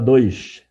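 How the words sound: It is said in a carioca accent. Listeners understand the intended number. The speaker calls it right. "que nem o carioca"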